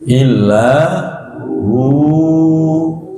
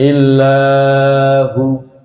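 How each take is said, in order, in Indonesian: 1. Vokal akhir dibaca panjang, satu ketukan. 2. Vokal akhir dipotong pendek. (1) "Ini karena wawunya dibaca panjang satu alif" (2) "Ada yang baca pendek illa hu. Salah"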